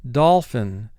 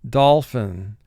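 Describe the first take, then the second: The two takes are said the same way.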